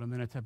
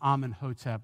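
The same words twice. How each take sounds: First: The name is said in a shorter form. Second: The name is said in a longer form. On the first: This is the speaker's own preferred way. "I call it Amenhotep. It's just quicker" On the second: This is how other people say it. "some people pronounce it"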